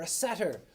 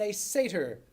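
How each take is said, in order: First: "satyr" said as SAT-er; short flat a, as in "cat", opening "satyr"; SAT-er pronunciation. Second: "satyr" said as SAY-ter; long ay in the first syllable of "satyr"; SAY-ter pronunciation. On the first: Teacher offering the class an alternative, "satyr" said SAT-er. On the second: Teacher comparing Hyperion and a satyr, "satyr" said SAY-ter. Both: Shown as a demonstration. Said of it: "or a satyr".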